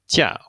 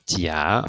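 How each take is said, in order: First: The pitch falls sharply from high to low. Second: The pitch rises from mid to high. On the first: It means vacation or leave. "in the fourth tone" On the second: It means cheek. "so in the second tone, we have"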